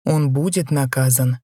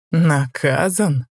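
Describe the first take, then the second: First: Said in the usual way. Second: Slow mocking echo of the word; scornful. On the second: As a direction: sneer the word back slowly. Lucifer repeats scornfully.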